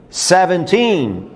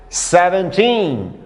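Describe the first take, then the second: No difference in how they are said.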